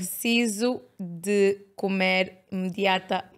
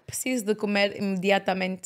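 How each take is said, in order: First: The sentence is said at a slow pace. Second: The sentence is said at a fast pace.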